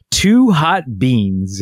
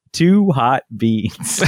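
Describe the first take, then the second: First: Slow, drawn-out "Two hot beans"; toddler phrase. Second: Slow "Two hot beans" stretching "Two"; toddler phrase. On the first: Retold or imitated. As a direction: say it like a small child. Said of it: "He said". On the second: Shown as a demonstration. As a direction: repeat the child's words slowly. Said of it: "Not, not beans too hot".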